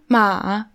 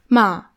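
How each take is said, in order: First: The pitch dips down then goes up. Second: The pitch falls like a statement. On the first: "also so runter, hoch" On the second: "und dann nochmal so nach unten"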